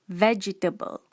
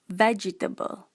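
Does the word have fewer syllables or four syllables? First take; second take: four; four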